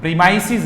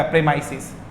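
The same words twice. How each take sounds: First: प्रीमाइसिस with a long ee, marked as wrong; wrong pronunciation. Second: प्रेमाइसिस with a short e; correct pronunciation. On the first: Teacher showing the wrong form. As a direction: say प्रीमाइसिस as pree-mice-is, the wrong way. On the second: Teacher correcting to the right form. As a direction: say प्रेमाइसिस as prem-ice-is. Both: Shown as a demonstration. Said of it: "प्रीमाइसिस नहीं होता".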